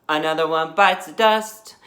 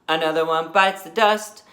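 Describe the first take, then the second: No difference in how they are said.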